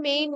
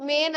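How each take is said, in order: First: মেইন with a gliding "ay-i", like "main"; correct vowel. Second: মেন with a short "e", like "men"; wrong vowel. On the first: Teacher corrects the first syllable, মেইন with "main" glide. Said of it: "মেইন হয়". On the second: Teacher shows what is wrong, মেন with short "e". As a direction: say মেন without the "i" glide. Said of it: "হয় না". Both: Shown as a demonstration.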